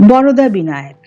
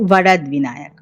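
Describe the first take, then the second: First: The name is said with Bengali pronunciation. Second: The name is said with Marathi pronunciation.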